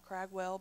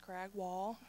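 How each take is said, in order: First: The last syllable sounds like 'well'. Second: The last syllable sounds like 'wall'. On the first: The speaker calls it wrong. "A lot of people mispronounce her name and call her Cragwell" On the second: The speaker calls it right. "but it's Cragwall"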